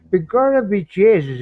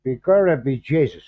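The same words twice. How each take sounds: First: Second, bolder go at a hammed-up stage Irish accent, higher and louder; overplayed Irish brogue, pitched up. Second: First tentative try at a stage Irish accent, at normal pitch and level; testing out a stock Irish brogue, half-hearted; mild mock Irish accent, feeling it out. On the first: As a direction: commit harder to the mock Irish brogue this time. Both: Shown as a demonstration. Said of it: "I'm trying to get the accent".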